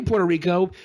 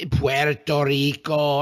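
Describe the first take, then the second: First: Said in the usual way. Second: Spanish-style "Puerto Rico", slow, rolled and clipped like "Pwerto Riko"; mock Spanish accent. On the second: Mocking how the president says it, exaggerated Spanish accent. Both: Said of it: "He kept saying Puerto Rico in this weird".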